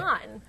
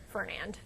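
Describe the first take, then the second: First: The name ends without a D sound. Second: The name ends with a D sound. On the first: The speaker calls it right. "No, no D at the end" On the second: The speaker calls it wrong. "I also want to say Fernand"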